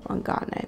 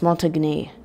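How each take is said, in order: First: The middle of the name sounds like 'got'. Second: The middle of the name sounds like 'tag'. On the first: The speaker calls it wrong. "you're just flipping on tag into got" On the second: The speaker calls it right. "It's Montagne"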